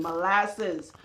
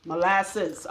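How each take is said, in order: First: Molasses said lightly in a Trinidadian accent; Trinidadian accent on molasses, lightly done. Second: Said in the usual way. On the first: Shown as a demonstration. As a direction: give molasses a hint of Trinidadian lilt. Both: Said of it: "I say to my Trinidadian accent".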